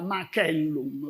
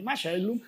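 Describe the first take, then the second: First: The c is hard, like k. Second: The c is soft, like ch. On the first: This is the way more common in Brazil. "porque o C si, si lê duro" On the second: This is the Italian way of reading Latin. "na pronúncia italiana si fala di macellum"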